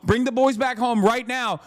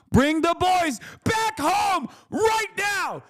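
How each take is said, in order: First: Said in the usual way. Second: Much higher, slow yelled demand; high drawn-out shout. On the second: Real, not acted. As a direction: stretch it out like a desperate rally cry.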